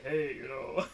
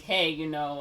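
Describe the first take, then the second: First: Lightly put-on voice for a pickup line. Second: Said in the usual way. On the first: Teenage cousin asks her out for Usnavi, in a put-on voice. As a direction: put on a voice to sound older. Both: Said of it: "puts on, like, a voice".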